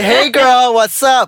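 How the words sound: The voice sounds effeminate.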